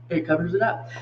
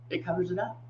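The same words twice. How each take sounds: First: Said in the usual way. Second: Soft aside. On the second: Real, not acted. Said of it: "repeated softly".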